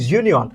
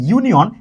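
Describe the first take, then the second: First: ইউনিয়ন opening on a buzzed consonant, like soft "zh"; soft z-like onset. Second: Said in the usual way. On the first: Shown as a demonstration. Teacher shows how union starts, ইউনিয়ন with z-like onset. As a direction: put a soft z-glide before the u in ইউনিয়ন. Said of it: "জের মতো, এই জন্য এ". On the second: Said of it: "জের মতো".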